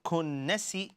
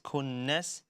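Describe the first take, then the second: First: The word ends with an added i vowel. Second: The word ends on a silent s sound. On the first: The speaker calls it wrong. "It's not kunnasi" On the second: The speaker calls it right. "last letter becomes a silent letter"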